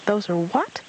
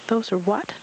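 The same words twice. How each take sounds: First: High squeaky little voice, asking again; a small child squeaking the question once more; high puzzled squeak; squeaky Roo. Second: High squeaky little voice; high eager squeak; squeaky Roo. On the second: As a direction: squeak it out like a small excited child. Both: Acted. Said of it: "Roo squeaked".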